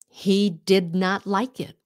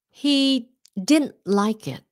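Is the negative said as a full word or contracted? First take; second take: full; contracted. First: The words did not are said in full. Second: Did not is contracted into one word.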